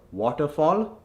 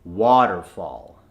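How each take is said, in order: First: Waterfall with forward rounded "o" in both halves; Indian accent. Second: Slow, lower waterfall with "ah" twice; American accent. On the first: Coach repeats the word to convert, Indian accent. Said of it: "from the Indian accent". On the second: Coach repeats the converted word, American accent. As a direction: say "waterfall" American, both vowels open. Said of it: "The A H is in water". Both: Shown as a demonstration.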